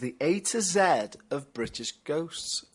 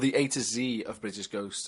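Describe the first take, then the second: First: The letter Z is said the British way. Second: The letter Z is said the American way.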